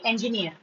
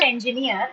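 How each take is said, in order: First: Said in the usual way. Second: "engineer" in the version being corrected; rejected pronunciation. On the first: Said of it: "It's actually engineer". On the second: Shown as a demonstration. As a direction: say "engineer" as the form to avoid, en-ji-neer in separate beats. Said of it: "It's not engineer".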